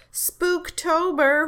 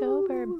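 First: Slow, high, loud spooky drawl; spooky drawn-out. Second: High spooky echo. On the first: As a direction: stretch it out like a ghost. Spooky Halloween hype. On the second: Echoing the spooky word. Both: Pretend.

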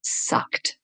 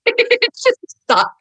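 First: Breathy whispered sucked. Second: It just sucked pitched high and slow, stretched out; high drawn-out. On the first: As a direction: breathe the word sucked with no voice, like a guilty confession. Reveals the bad cover. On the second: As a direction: wail the word sucked high and slowly in dismay. Repeats verdict on cover. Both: Acted.

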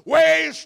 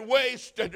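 First: High, drawn-out anguished scream; agonized dying man's cry. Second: Loud, high, acted sobbing cry; wailed word of despair; sobbed. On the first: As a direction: scream it at full force, stretching the word. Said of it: "He just screamed out". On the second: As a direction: cry it out in anguish, falling away. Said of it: "Then he sobbed and said". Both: A narrator's reading.

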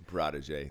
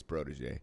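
First: "Protege" said with an "ah" in the first syllable, prah-tuh-zhay; mocking mispronunciation. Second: "protege" with a long "o", pro-tuh-zhay; correct pronunciation. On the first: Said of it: "That's cute". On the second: Shown as a demonstration. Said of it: "I think it's protege".

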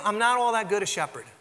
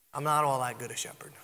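First: Said in the usual way. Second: Whispered confession, unvoiced; hushed whisper of an admission. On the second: Shown as a demonstration. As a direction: breathe it like a secret.

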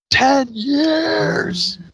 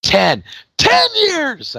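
First: High, half-crying ten years; Jeremy Piven impression. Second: High yelled ten years; Jeremy Piven impression. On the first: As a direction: wail it like a shocked old classmate. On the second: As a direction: shout it like a stunned old classmate. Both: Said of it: "I always do the Jeremy Piven thing".

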